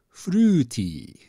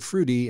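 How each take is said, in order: First: It is pronounced with Japanese sounds and syllables. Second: It is pronounced with ordinary English sounds. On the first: "they pronounce it with Japanese rules, and they get fruity" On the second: "They basically take the word fruity"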